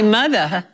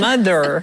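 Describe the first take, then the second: First: It is said in an Australian accent, dropping the R. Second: It is said in an American accent, with the R.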